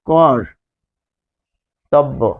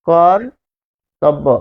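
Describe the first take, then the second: First: The word is said slowly with a pause after কর. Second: The word is said smoothly without a break.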